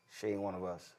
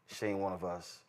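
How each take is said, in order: Both takes have the same delivery.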